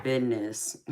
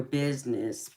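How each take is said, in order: First: "business" said as "bidness", with a d for the z; southern "bidness". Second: Said in the usual way. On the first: Retold or imitated. Streamer recalling the reply to a nosy guest, "business" said southern as "bidness". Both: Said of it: "but I said business".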